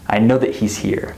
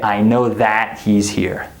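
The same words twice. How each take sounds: First: The word 'that' is unstressed and reduced. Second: The word 'that' is stressed and fully pronounced. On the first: The speaker calls it right. "We don't stress this word in this structure" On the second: The speaker calls it wrong. "I don't say"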